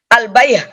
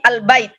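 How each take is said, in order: First: The word ends with an h sound. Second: The word ends with a t sound. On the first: The speaker calls it wrong. "Kalau dia sukun bukan menjadi al-bayh, bukan" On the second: The speaker calls it right. "Tapi al-bait"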